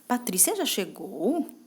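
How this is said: It sounds doubtful and questioning. The speaker is unsure whether it happened. "quando eu tô com uma dúvida"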